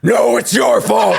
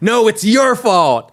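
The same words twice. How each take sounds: First: It is said in a deep, gruff Batman-like voice. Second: It is said in a normal voice.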